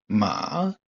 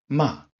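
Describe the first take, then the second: First: The pitch dips down, then rises higher. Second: The pitch falls sharply from high. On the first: "Troisième ton, celui qui descend pour remonter et arriver plus haut" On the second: "quatrième ton, ton qui part de très haut et qui tombe"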